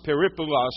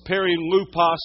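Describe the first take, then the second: First: Peripulos with the p before the l; alternative Greek pronunciation. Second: Perilupos said as peri-LU-pos; Greek word pronunciation. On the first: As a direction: say peripulos, a variant of perilupos. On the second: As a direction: sound out perilupos with "loo" in the middle. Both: Shown as a demonstration. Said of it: "however you want to say it".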